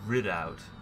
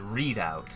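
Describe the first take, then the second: First: The first syllable sounds like 'rid'. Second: The first syllable sounds like 'read'. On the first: This is the intended pronunciation. "It's supposed to be pronounced" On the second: This is the speaker's own habitual pronunciation. "but I pronounce it Readout"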